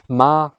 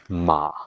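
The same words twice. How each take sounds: First: The syllable is said with the first tone. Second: The syllable is said with the third tone.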